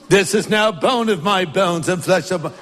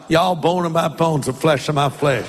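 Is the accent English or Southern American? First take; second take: English; Southern American. First: It is said in an English accent. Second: It is said in a Southern American accent.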